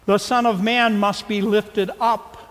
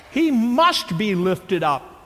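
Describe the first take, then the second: First: "must" pressed firmly, a little louder; emphatic must. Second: Slow, "must" hit hard and held; stress on must. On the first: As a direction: lean into "must" as a command. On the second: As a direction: drive "must" home slowly, word by word. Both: Shown as a demonstration. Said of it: "Did you catch how emphatic he was?".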